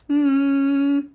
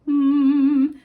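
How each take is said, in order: First: The hum sounds tight and squeezed. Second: The hum sounds tall and open. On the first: The speaker calls it wrong. "if you're humming like this, ... see how tight that feels?" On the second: The speaker calls it right. "hum tall"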